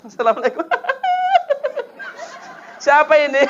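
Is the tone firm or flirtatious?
flirtatious. It is said in a soft, drawn-out, flirtatious tone.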